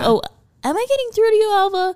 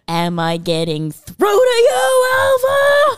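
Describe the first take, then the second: First: The line is delivered in an ordinary, natural way. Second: The line is delivered in the actor's over-the-top style.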